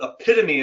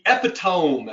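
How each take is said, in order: First: The word has its usual spoken pronunciation. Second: The word is sounded out letter by letter. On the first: "as it's pronounced" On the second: "as it's spelled"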